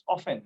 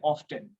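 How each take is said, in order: First: "often" said OFF-en, t left silent. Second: "often" said OFF-ten, t clearly pronounced; often with the t sounded. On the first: Teacher giving correct silent-t often. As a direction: say "often" without any t sound. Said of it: "लेकिन सही pronunciation often". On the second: Teacher showing the common t pronunciation of often. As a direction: say "often" with a hard t in the middle. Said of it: "कुछ लोग पढ़ते हैं often". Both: Shown as a demonstration.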